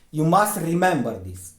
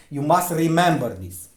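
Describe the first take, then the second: No difference in how they are said.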